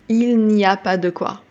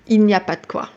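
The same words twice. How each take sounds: First: The word de is clearly pronounced. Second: The word de is swallowed.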